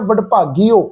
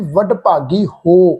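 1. 'ho' ਦਾ ਅੰਤਲਾ ਸਵਰ ਛੋਟਾ ਕੱਟਿਆ ਜਾਂਦਾ ਹੈ। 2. 'ho' ਦਾ ਅੰਤਲਾ ਸਵਰ ਲੰਮਾ ਖਿੱਚਿਆ ਜਾਂਦਾ ਹੈ। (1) "ਹੁਣ ਕਈ ਸੱਜਣ ਇਹਦਾ ਪਾਠ ਉਚਾਰਨ ਕਰਦੇ ਆ" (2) "ਇਹ ਪਾਠ ਦਾ ਉਚਾਰਨ ਮੈਂ ਕੀ ਕਰ ਰਿਹਾ ਜੀ"

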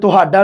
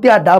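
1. ਇਹ ਸ਼ਬਦ ਸੁਰ ਤੋਂ ਬਿਨਾਂ ਸਿੱਧਾ ਬੋਲਿਆ ਜਾਂਦਾ ਹੈ। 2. ਇਹ ਸ਼ਬਦ ਸਾਫ਼ ਸੁਰ ਨਾਲ ਬੋਲਿਆ ਜਾਂਦਾ ਹੈ।

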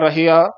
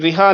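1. ਇਹ ਸ਼ਬਦ 'rahia' ਕਹਿ ਕੇ ਬੋਲਿਆ ਜਾਂਦਾ ਹੈ। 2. ਇਹ ਸ਼ਬਦ 'riha' ਕਹਿ ਕੇ ਬੋਲਿਆ ਜਾਂਦਾ ਹੈ।

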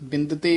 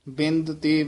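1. ਇਹ ਸ਼ਬਦ ਇੱਕ ਜੁੜੀ ਹੋਈ ਇਕਾਈ ਵਜੋਂ ਬੋਲਿਆ ਜਾਂਦਾ ਹੈ। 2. ਇਹ ਸ਼ਬਦ ਦੋ ਹਿੱਸਿਆਂ ਵਿੱਚ ਵੰਡ ਕੇ ਬੋਲਿਆ ਜਾਂਦਾ ਹੈ। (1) "ਇਕੱਠਾ ਪਾਠ ਕਰਨਾ ਹੈ" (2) "ਵੱਖਰਾ ਨਹੀਂ ਕਰਨਾ ਹੈ"

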